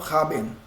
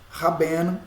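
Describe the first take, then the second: First: The stress is on the first syllable. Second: The stress is on the last syllable. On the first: The speaker calls it wrong. "e não raben" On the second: The speaker calls it right. "a sílaba tônica está nela, no ben"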